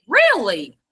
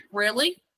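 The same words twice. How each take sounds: First: Right tune. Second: Wrong tune. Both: Shown as a demonstration. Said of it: "I have a question mark there".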